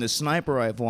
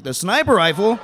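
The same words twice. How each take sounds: First: Said in the usual way. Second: SNIPER jumps high in disbelief; incredulous outburst. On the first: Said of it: "and he says". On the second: Acted. Marine echoing buddy's confession, aghast high "sniper". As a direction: repeat "sniper rifle" as an aghast question. Incredulous echo of worse admission.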